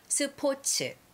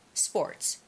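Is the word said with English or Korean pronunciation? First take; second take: Korean; English. First: It is said with choppy Korean syllables. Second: It is said with smooth English pronunciation. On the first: "We say 스포츠" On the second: "we say sports"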